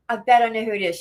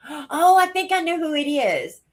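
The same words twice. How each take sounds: First: Said in the usual way. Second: Gasp, then a high excited realization; sudden realization. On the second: Real, not acted. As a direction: it just clicked, blurt it out.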